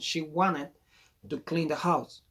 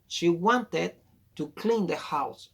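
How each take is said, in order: First: The t in 'wanted' is dropped. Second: The t in 'wanted' is clearly pronounced.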